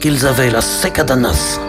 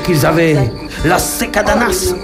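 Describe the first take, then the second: First: It is said without a southern French accent. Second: It is said with a southern French accent. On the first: "tu trouves un autre accent" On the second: "il faut toujours que vous rajoutiez un accent du sud"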